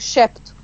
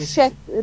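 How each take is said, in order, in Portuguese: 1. O P é claramente pronunciado. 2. O P fica mudo. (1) "digo chepto" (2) "eu não digo chepto"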